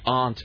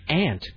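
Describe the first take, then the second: First: The word is said with an East Coast pronunciation. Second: The word is said without an East Coast pronunciation.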